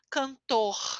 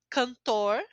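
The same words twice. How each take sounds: First: The R is said the Rio de Janeiro way. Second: The R is said in the speaker's regional way.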